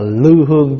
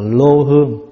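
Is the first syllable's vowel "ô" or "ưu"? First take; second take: ưu; ô. First: The first syllable has the vowel ưu. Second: The first syllable has the vowel ô. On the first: This is how it is read today. "bây giờ mình đọc là lưu hương" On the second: This is how it was read in the old days. "chứ hồi xưa đọc là lô hương"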